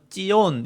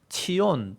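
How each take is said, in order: First: It begins with a tense jj sound. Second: It begins with an aspirated ch sound. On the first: "쌍지읒 발음으로 하기도 하는데" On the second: "차대라서 치읓 발음이 나거든요"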